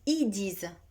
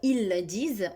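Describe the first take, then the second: First: The L of ils is dropped entirely. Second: The L of ils is pronounced clearly. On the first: "de ne pas prononcer le L de il" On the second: "au lieu de dire"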